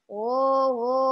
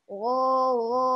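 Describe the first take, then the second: The two takes are said the same way.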